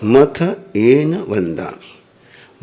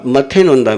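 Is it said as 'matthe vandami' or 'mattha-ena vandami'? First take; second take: mattha-ena vandami; matthe vandami. First: The first word ends in 'ena' before 'vandami'. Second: The first word ends in 'e' and runs on. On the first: The speaker calls it right. "मथ एन वंदामी मतलब होता है मस्तकेन वंदामी" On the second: The speaker calls it wrong. "आप मथे नोंदा में बोलते हो"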